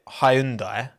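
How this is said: It is said with a British pronunciation. "British pronounce it Hyundai"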